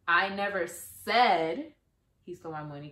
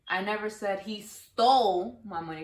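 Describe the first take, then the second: First: The stress is on "said". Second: The stress is on "stole".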